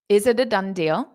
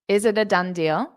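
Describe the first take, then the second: Both takes have the same delivery.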